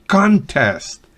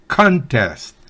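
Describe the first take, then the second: The two takes are said the same way.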